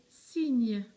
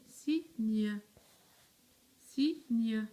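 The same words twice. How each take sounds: First: "cygne" as one long, loud word, falling; whole word, drawn out. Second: "cygne" split into two syllables, cy, gne. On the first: Teacher asking pupils if it matches, whole word drawn out. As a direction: say "cygne" unbroken and loud, stretching the vowel. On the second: Teacher making pupils look at the word, syllable by syllable. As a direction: sound out "cygne" with a clear gap before gne. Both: Shown as a demonstration.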